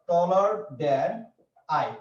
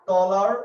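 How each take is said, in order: First: Taller than stretched out very slowly; slow spelled-out example. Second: Taller said out loud and punched with a rise; stressed example word. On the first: Teacher slowly dictating taller than to students. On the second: Teacher stressing taller for his students. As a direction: hit taller hard, like the key word on the board. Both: Shown as a demonstration. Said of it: "যেমন আমরা কি বলি".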